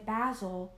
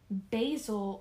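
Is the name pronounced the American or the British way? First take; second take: British; American. First: The name has a British pronunciation. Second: The name has an American pronunciation.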